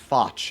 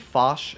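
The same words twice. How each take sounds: First: The word ends with a ch sound. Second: The word is said the French way. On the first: The speaker calls it wrong. "you pronounce it a ch sound" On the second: The speaker calls it right. "as you would say it in French"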